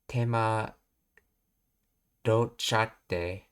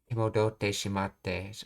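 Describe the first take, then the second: First: The ending is contracted into a short form. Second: The ending is said as full separate words.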